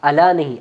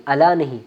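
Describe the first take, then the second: No difference in how they are said.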